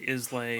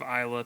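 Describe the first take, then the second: First: The word ends with an 'ay' sound. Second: The word ends with an 'ah' sound. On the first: The speaker calls it wrong. "people say Islay" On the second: The speaker calls it right. "instead of Isla"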